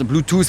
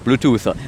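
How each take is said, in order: First: The word is pronounced the French way. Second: The word is pronounced the English way. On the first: It would make the speaker seem foolish. "si on le fait à la française" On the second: It would make the speaker seem pretentious. "si je le fais à l'anglaise"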